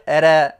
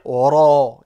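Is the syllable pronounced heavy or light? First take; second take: light; heavy. First: The syllable is pronounced light and thin. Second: The syllable is pronounced heavy and deep. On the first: The speaker calls it wrong. "on ne va pas dire ra" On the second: The speaker calls it right. "mais on va dire ra, grave"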